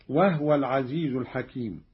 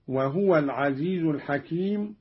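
First: وهو recited "wahwa", h without a vowel; no vowel after the h of وهو; sukun on ha. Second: Said in the usual way. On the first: Shown as a demonstration. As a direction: say وهو as two syllables, "wah-wa". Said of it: "بإسكان الهاء أيضًا هكذا". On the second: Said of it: "بإسكان الهاء".

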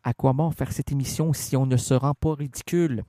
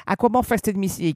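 First: Lower, settled and unhurried; calmly. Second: Pitched higher and pushed; heated question. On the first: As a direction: say it calmly this time. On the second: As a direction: fire the question out. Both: Shown as a demonstration.

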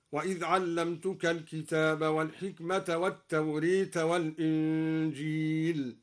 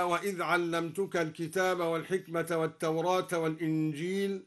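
First: التوراة with the vowel bent toward e, التوريت; imala on التوراة. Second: Said in the usual way. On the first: Shown as a demonstration. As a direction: incline the last alif of التوراة. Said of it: "أمال التوراة هكذا". (إمالة التوراة) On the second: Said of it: "أمال التوراة".

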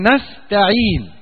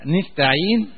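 First: "نستعين" opening with an a-vowel, slow; standard nastaʕīn. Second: "نستعين" said nistaʕīn, with an i after the n; nun with kasra. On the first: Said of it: "يقروها إيه". ("نستعين" بفتح النون) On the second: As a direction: open "نستعين" with an i, as the Asad tribe does. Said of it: "قراءة لقبيلة أسد وقبيلة تميم". ("نستعين" بكسر النون، نِستعين) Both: Shown as a demonstration.

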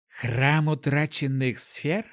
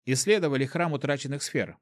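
First: Slow, questioning rise; curious surprised question. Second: Said in the usual way. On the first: A narrator's reading. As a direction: echo it back, intrigued and curious. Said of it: "переспросила она".

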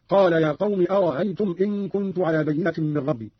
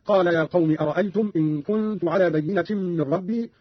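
First: أرأيتم with its second hamza softened to a glide; eased second hamza. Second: Said in the usual way. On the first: Shown as a demonstration. Teacher shows Qalun's reading, أرأيتم with eased second hamza. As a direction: glide through the middle of أرأيتم, no full catch. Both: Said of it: "قرأ قالون بتسهيل الهمزة الثانية".

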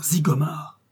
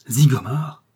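First: Stunned echo. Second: Louder incredulous rising cry; astonished question. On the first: A second onlooker echoes the name, stunned. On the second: Onlookers exclaim in disbelief at the revelation. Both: A narrator's reading. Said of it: "s'écria-t-on".

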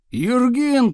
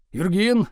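First: Higher, louder summons; raised tone. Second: Said in the usual way. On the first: A narrator's reading. Teacher calling unknown pupil, raised tone. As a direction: call the name louder, pitched up. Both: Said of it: "тоном выше повторил Слушкин".

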